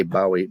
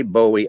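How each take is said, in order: First: "Bowie" said BOW-ee, as in "take a bow"; first syllable of Bowie rhymes with cow. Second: "Bowie" said BOH-ee; first syllable of Bowie like "bow and arrow". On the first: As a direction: say Bowie as BAU-ee. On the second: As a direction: say Bowie to rhyme with snowy. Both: Shown as a demonstration. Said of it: "There's two different saying it".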